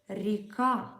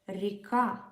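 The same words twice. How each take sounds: No difference in how they are said.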